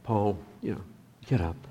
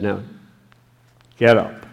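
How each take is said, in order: First: Softer, coaxing version of the order; soft, friendly nudge to stand; gentle urging. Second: A loud, firm order; booming command to rise; stern command. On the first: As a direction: say it kindly, almost privately. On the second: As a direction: bark it like an order from above. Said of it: "I don't know what the inflection was when he said". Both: Shown as a demonstration.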